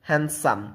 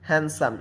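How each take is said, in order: Both takes have the same delivery.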